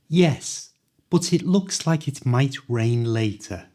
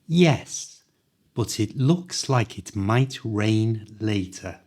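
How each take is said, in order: First: The sentence is spoken a little faster. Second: The sentence is spoken slowly and carefully.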